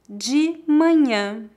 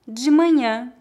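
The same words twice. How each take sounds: First: It is spoken slowly and carefully. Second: It is spoken at a natural pace. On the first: "Uma vez mais devagar" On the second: "2 vezes mais naturalmente"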